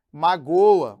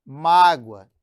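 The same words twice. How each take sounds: First: "magoa" hit loud on the middle syllable, ma-GÔ-a; "magoa" as a verb, ma-GÔ-a; stress on GO. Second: "mágoa" hit loud on the first syllable, MÁ-gwa; slightly drawn-out MÁ in "mágoa"; stress on MÁ. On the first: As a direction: punch the closed GÔ in "magoa". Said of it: "que é diferente de". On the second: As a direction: punch MÁ in "mágoa". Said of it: "Olha a sílaba tônica em mágoa". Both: Shown as a demonstration.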